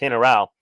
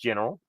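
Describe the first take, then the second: First: The word is said with Spanish sounds. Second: The word is said with English sounds. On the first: "but it's pronounced General" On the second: "In English, it's pronounced General"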